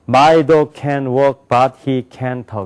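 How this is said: Every syllable gets roughly even weight. The speaker calls it wrong. "한국 사람은 ... 이렇게 한다고"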